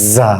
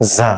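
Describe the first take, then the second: First: It begins with a buzzing 'z' sound. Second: The same.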